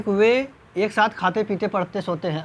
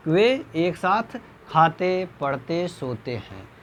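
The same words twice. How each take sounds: First: Said in the usual way. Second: Slow, a break after खाते and पढ़ते; slow, pause at each comma. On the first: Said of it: "ऐसे तो हम बोलेंगे नहीं". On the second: Shown as a demonstration. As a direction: ease down through the verbs. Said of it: "इस तरह जो है हम". (धीरे, हर अल्प विराम पर ठहराव)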